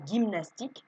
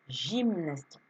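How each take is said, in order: First: The word starts with a hard g sound. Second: The word starts with a soft j sound. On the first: The speaker calls it wrong. "ça ne se lira pas gymnastique" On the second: The speaker calls it right. "on entend le j"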